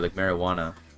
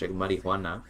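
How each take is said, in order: First: It is said English-style, without the H sound. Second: It is said Spanish-style, with an H sound. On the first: "more like an English person would" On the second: "If you say it like nicely, like it's Spanish"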